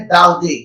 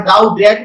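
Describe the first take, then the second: First: डाउडे ending on an open vowel, no T; correct pronunciation demo. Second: डाउडेट with a wrongly sounded final T; mispronunciation demo. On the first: Teacher gives class the writer's surname, correct pronunciation demo. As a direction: say डाउडे cleanly, ending on the e sound. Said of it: "ये है डाउडे". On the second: Teacher warns class off a misreading, mispronunciation demo. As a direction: say डाउडेट, adding a T at the end. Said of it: "यहाँ डाउडेट मत पढ़ना आप". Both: Shown as a demonstration.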